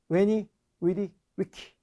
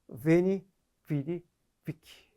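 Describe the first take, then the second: First: It uses a less familiar pronunciation of the words. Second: It uses the more familiar pronunciation of the words.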